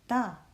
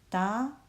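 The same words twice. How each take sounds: First: The pitch falls sharply from high to low. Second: The pitch rises from middle to high.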